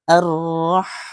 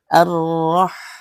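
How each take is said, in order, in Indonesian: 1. Bunyi h di akhir jelas dihembuskan. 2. Bunyi h di akhir jelas dihembuskan.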